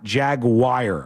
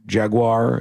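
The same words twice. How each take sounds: First: It is said the way Jacksonville fans say it. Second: It is said in the usual standard way. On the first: The speaker calls it wrong. "but not Jaguar" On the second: The speaker calls it right. "Jaguar is fine"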